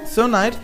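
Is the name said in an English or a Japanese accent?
English. It is said with English pronunciation. "dieses Sir Knight war wahrscheinlich die Idee"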